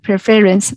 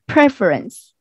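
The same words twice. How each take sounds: First: The stress is not on the first syllable. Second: The stress is on the first syllable. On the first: The speaker calls it wrong. "not not in that way" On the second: The speaker calls it right. "stress on the first syllable"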